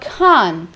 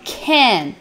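First: The vowel is a more open sound, like 'ah'. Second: The vowel is a closer sound, like 'eh'. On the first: "O inglês britânico vai falar um pouquinho mais aberto, como se fosse uma letra A" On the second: "o inglês americano, ele vai falar esse can como se fosse um é"

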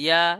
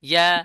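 No difference in how they are said.

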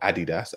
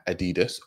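First: It is said with a British pronunciation. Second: It is said with an American pronunciation.

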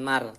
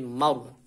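First: The r sound is light and thin. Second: The r sound is heavy and thick. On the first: The speaker calls it wrong. "bukan mar" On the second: The speaker calls it right. "tapi mar. Ditebalkan huruf roknya"

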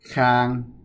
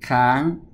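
First: The syllable has a mid level tone. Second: The syllable has a high tone. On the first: "Khi không có dấu thì mình sẽ đọc máy xả manh" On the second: "khi viết máy thô thì mình sẽ đọc máy tri"

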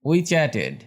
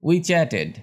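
The two takes are said the same way.

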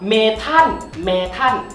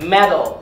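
First: The middle t is a Thai-style t. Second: The middle t is a light tongue tap. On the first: "ถามว่าเมทัลผิดไหมไม่ผิด" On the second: "ได้ออกเสียงให้เป็น, T ... แตะข้างบน"

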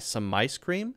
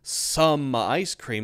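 First: 'Some' is unstressed and runs into 'ice'. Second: 'Some' is said fully and kept separate. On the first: The speaker calls it right. "Some my, and that sounds like my" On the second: The speaker calls it wrong. "there's no some ice cream"

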